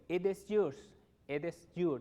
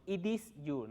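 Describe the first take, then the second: First: "It is" as "ed es", run together; linked, open "It is"; correct pronunciation. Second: "It is" as "ee dees"; Spanish i sounds in "It is"; wrong pronunciation. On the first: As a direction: say "It is yours" with open e vowels. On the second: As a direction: say "It is yours" with tight ee vowels. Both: Shown as a demonstration.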